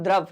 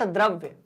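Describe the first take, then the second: First: "द्रव" ending on a v, no y-glide; "द्रव" with nothing after the v; ends in v. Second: "द्रव्य" with a y-glide after the v; "द्रव्य" with the final vya sounded; ends in vya. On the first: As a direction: say "द्रव", closing on the v sound. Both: Shown as a demonstration. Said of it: "not द्रव्य".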